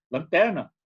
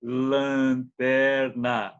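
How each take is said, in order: First: Said in the usual way. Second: Lanterna stretched out syllable by syllable, LAN-TER-NA; careful, over-slow lanterna with long held vowels; exaggeratedly slow. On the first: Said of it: "Ninguém fala assim". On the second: Shown as a demonstration. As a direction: draw out every syllable of lanterna very slowly. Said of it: "Ninguém fala assim, devagarzinho".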